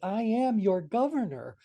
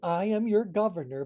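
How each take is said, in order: First: It is said with a marked, meaningful inflection. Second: It is said as a plain statement.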